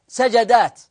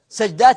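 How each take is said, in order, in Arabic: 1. يأتي بعد صوت j حركة a. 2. لا توجد حركة بعد صوت j. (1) "لا سجدات" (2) "ها قولوا سجدات"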